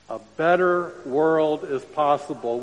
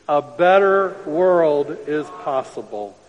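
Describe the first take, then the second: First: It is said plainly, without extra force. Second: It is said firmly, with strong conviction.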